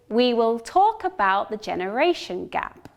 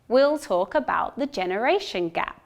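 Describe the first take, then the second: First: Both words 'we will' are said in full. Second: 'We will' is shortened into one quick syllable. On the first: The situation is formal. "I say, we will in its full form" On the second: The situation is friendly. "reduced to we'll... pronounced much shorter and faster"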